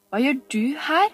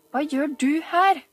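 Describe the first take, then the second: First: Put-on higher, louder boy's demand; a boy catching a girl spying. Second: Higher, louder, pressing repeat; harder repeat. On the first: Oliver to Camilla, a sharp demanding boy. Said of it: "spurte han". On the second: Acted. Oliver repeating to Camilla, pressing harder. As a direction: squeeze the answer out of her. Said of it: "gjentok han og klemte hardere".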